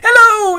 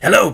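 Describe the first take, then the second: First: It is said in a high falsetto voice. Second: It is said in a low, deep voice.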